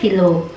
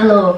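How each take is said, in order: First: A vowel is inserted between the first consonants. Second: The two first consonants are said together. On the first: "itu mereka nyebutnya philo" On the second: "dua huruf konsonan bersebelahan"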